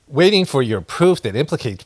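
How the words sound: It is read in a put-on character voice.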